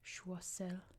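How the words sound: The name is said with a French pronunciation. "I know in French it's Choiseul"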